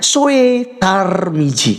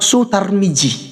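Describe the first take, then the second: First: The first vowel is split into 'o' and 'e'. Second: The first vowel is a single 'u' sound.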